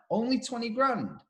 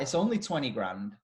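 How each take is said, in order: First: Higher, disbelieving echo; incredulous mimic. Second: Said in the usual way. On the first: Imitating a friend's disbelief at the van price. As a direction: throw the words back in mock disbelief. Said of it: "And the person went". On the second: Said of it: "And I went".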